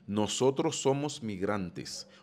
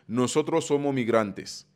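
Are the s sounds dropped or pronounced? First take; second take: pronounced; dropped. First: Every s sound is clearly pronounced. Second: The s sounds are dropped, Dominican style. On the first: "espagnol académique pour qu'on capable bien prononcer" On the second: "dominicain t'a dit"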